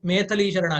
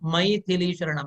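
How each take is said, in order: First: The first vowel is a plain e sound. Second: The first vowel is an ai diphthong. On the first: The speaker calls it wrong. "ಮೇಥಲಿ ಶರಣ ಆಗಿದೆ" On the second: The speaker calls it right. "ಮೈ आई है इसमें"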